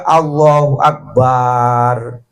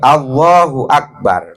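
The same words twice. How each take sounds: First: The vowel after the b is long. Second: The vowel after the b is short. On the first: The speaker calls it wrong. "wa adamu maddil ba'i akbar. Nggak boleh juga" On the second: The speaker calls it right. "harus hati-hati"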